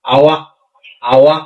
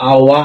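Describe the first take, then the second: First: আওয়া with the final k swallowed, ending open on আ; Malay pronunciation of আওয়া. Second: আওয়া with no audible final k, ending open; Malay pronunciation of আওয়া. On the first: Teacher showing students how Malaysians say আওয়া. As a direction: say আওয়া, holding back the k so it is never released. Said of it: "ওরা এমন ভাবে উচ্চারণ করে". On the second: Teacher modelling the Malaysian way to say আওয়া. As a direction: say আওয়া, the k held in the mouth and never released. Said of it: "ওরা উচ্চারণ করবে কি". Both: Shown as a demonstration.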